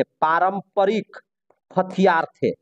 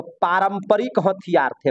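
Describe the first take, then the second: First: Drawn out, pausing between words; slow dictation. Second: Said in the usual way. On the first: Real, not acted. Teacher repeating the answer for students to write, slow dictation. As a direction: repeat it slowly, word by word.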